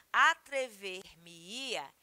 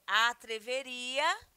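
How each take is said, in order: First: "atrever-me-ia" drawn out slowly, each part apart; mesoclisis demo. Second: "atreveria" said slowly in one piece, rising; base verb form. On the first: Teacher to students, showing mesoclisis, slow and syllabic. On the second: Teacher to students, naming the plain verb, slow. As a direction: give "atreveria" whole, slow, ending up. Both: Shown as a demonstration. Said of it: "o verbo no futuro do pretérito".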